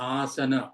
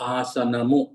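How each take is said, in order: First: The word ends on an open a vowel. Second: The word ends with an added mu syllable. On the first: This is the original Sanskrit form of the word. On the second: This is the Telugu form of the word. "ఆసనము Telugu"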